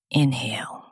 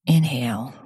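First: Breathy whispered inhale cue. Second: Said in the usual way. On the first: Shown as a demonstration.

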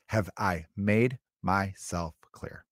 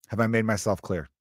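First: "Have I made myself clear" very slow, word by word; softer, spacing out each word of "Have I made myself clear"; slow mock-stern repeat. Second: "Have I made myself clear" at an even everyday pace; mock stern check. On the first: Dad drilling the warning into his kid, slow and stern. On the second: Dad checking his bratty kid heard the warning, mock stern.

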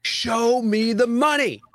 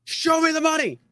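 First: Chanted, high, slow, hyped-up cry of the catchphrase; chanted, sell it like a sports-movie rallying cry. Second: Very high, excited yelp on ME; catchphrase cry, higher. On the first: Chanted, host opening the show with its catchphrase, hyped and high. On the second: Host capping the show intro, an even higher hyped cry. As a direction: top the first take, go way up. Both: Acted.

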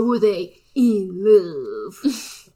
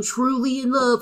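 First: "in love" stretched out slowly and theatrically; hammed-up, lingering stress on "in love"; drawn-out IN LOVE. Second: Said in the usual way. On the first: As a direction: draw "love" right out, mock-dramatic. Exaggerated repeat of the question.

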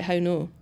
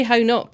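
First: "How no" with no final t; rejected Scots pronunciation. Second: "How not" with a sounded final t; own pronunciation. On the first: Host showing what they wouldn't say, "How no" without t. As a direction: say "How no" softer, open vowel ending. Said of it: "but I wouldn't say, like". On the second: Host showing own way of saying it, "How not" with final t. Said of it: "I definitely say". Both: Shown as a demonstration.

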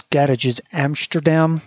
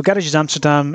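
First: Slow attempt at a Dutch accent. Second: Said in the usual way. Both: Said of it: "I really shouldn't have attempted a Dutch accent there".

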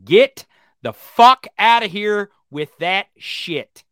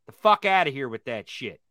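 First: Slow, louder, each word hammered; slow furious snap; angry dismissal. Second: Said in the usual way. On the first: Real, not acted. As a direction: drag it out in disgust.

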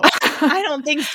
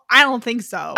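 First: Higher, slower, drawn-out I don't think so; sassy dismissal. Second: Said in the usual way. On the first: Real, not acted. Cohost mocking a character's weak comeback, sassy and drawn out. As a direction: sing it out as a put-down.

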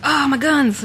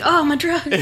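First: High delighted gasp; excited. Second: High, laughing, delighted; excited. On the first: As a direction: gush over the guns. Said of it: "I was like". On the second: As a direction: squeal it through a laugh. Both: Retold or imitated.

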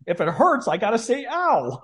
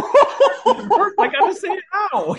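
First: Higher mock-reasonable whine; dad answering mom's scolding; dad's reply. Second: High, slow, laughing repeat; retelling dad's line while cracking up; laughing quote. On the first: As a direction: lightly play the aggrieved dad. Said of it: "he's like". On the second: Retold or imitated. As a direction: squeal it through laughter. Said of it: "This is the kind of conversation".

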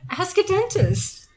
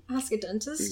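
First: "Ask a dentist" said slowly, high, as a title; announcing show title. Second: "Ask a dentist" asked lower and quieter, rising; asking tune. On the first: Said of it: "I think that's gonna be the show title". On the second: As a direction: float "Ask a dentist" as a question. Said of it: "Is that a good?". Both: Shown as a demonstration.

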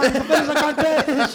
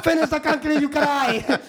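First: Higher, louder order with a laugh; mock yell. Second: Higher, louder jeering order; mock the crybaby with a shout; mock taunting yell. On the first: Crew ordering rookie to finish concrete, loud mock. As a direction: shout the order half laughing. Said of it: "they're like". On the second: Crew taunting crying rookie to finish concrete, loud mock.

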